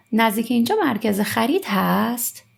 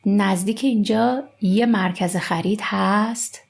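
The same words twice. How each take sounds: First: "نزدیک اینجا مرکز" run together quickly, no یک; spoken form. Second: Said in the usual way. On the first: Shown as a demonstration. Teacher reading the conversation in spoken form, "اینجا مرکز" run together quickly. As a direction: link "اینجا مرکز" fast without the article. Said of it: "We say like this". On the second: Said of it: "we don't say یک".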